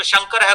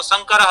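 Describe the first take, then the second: First: Said in the usual way. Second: शंकर said as sankarah. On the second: Shown as a demonstration. Teacher showing Rajasthani fault, शंकर as sankarah. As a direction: start शंकर with a plain 's', not 'sh'. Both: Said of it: "शकार को सकार के रूप में".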